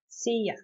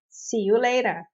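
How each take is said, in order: First: The word you is reduced to ya. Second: The word you is pronounced in full.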